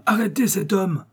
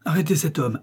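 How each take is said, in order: First: The repeat pitched higher and more urgent; urgent repeated shout. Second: A firm call to the officers, raised pitch; shouting to the police. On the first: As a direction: push the second call harder as he slips away. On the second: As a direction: call out an order to grab the man. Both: A narrator's reading. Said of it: "Il cria fortement aux agents".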